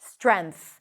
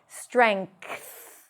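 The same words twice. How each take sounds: First: A plain N sound comes before the final th. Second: A K sound comes before the final th. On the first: "N and T H" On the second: "You can also pronounce it as a K"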